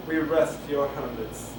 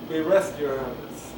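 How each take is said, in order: Both takes have the same delivery.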